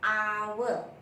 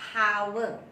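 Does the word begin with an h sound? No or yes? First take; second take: no; yes. First: The word begins with a vowel sound. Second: The word begins with an h sound. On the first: The speaker calls it right. "It's hour, ah sound" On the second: The speaker calls it wrong. "not hour, not h sound"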